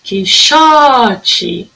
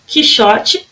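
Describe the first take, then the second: First: "Quixote" with "xo" held long; stressed middle syllable. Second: Said in the usual way. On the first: Shown as a demonstration. Teacher showing the strong syllable, drawn-out "xo" in "Quixote". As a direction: stretch the "xo" in "Quixote", short ending. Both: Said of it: "a sílaba mais forte".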